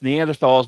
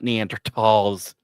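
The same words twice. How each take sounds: First: The middle consonant is a 'th' sound. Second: The middle consonant is a plain 't' sound. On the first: The speaker calls it right. "We were taught the proper way ... I'm pronouncing the H" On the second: The speaker calls it wrong. "not Neanderthals"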